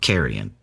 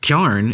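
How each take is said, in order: First: The word is said in full, three syllables. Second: The word is squeezed into one short syllable.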